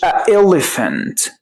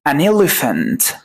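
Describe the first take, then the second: First: "a elephant" with a catch between the vowels; نطق خاطئ. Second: "An elephant" linked, slow "a-nelephant"; نطق موصول. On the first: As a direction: break "a" off before "elephant". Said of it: "ما أقولش". ("a elephant" بلا نون وبقطع بين الحركتين) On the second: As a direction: carry the N of "An" into "elephant", slowly. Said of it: "حط an". ("An elephant" ببطء والنون موصولة) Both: Shown as a demonstration.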